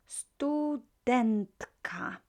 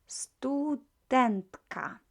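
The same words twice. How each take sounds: No difference in how they are said.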